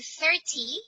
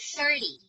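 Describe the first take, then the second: First: The middle consonant is a clear T sound. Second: The middle consonant is a short D-like sound. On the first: "instead of saying thirty" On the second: "T here has the short sound of D"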